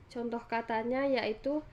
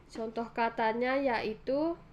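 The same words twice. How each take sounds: Both takes have the same delivery.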